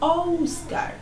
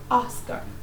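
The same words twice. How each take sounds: First: The first vowel sounds like 'oh'. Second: The first vowel sounds like 'ah'. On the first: The speaker calls it wrong. "we don't say Oscar" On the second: The speaker calls it right. "we say Oscar, Oscar, ah, ah. So this is the pronunciation"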